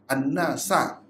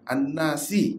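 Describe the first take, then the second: First: The word ends with an 'a' vowel. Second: The word ends with an 'i' vowel. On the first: The speaker calls it right. "dengan nasab" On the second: The speaker calls it wrong.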